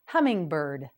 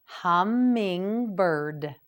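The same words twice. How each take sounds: First: Said in the usual way. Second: Hummingbird, each syllable drawn out slowly; slow teacher model of hummingbird; slow model word. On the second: Shown as a demonstration. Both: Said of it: "You try it".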